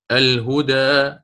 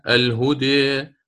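First: Slow الهدى ending on open aa; open fath reading. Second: Slow الهدي ending on a long "eh"; taqlil reading. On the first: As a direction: draw out الهدى as "al-hudaa". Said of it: "والفتح مقدم دائمًا". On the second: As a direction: draw out الهدي as "al-hudee", between a and i. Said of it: "فهذه فيها الخلف". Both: Shown as a demonstration.

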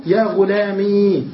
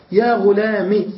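First: "غلامي" slow, with a long ee; still ya kept. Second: "غلام" said "ghulami", short i; ya dropped. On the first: Teacher showing the first form, drawn-out ee ending. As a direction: stretch the final ee of "غلامي". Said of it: "بإثبات الياء ساكنة". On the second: Teacher showing the second form, short i ending. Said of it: "بحذف الياء الساكنة". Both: Shown as a demonstration.

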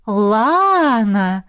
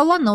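First: Long drawn-out «Лана», pitch arching up; «Лана» stretched in a knowing, astonished echo; surprised echo question. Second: Said in the usual way. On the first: A narrator's reading. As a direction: echo «Лана» back, stretching the first vowel with teasing interest. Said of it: "в один голос переспросили мы с сестрой".

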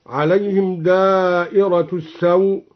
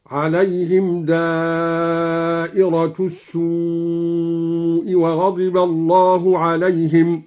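First: Said in the usual way. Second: السوء said as as-suu, long damma. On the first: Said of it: "قرأ الدوري بضم السين ممدودة". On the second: Shown as a demonstration. Teacher demonstrates the damma reading for students, very slow. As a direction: recite السوء with a drawn-out u, very slow. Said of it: "هكذا".

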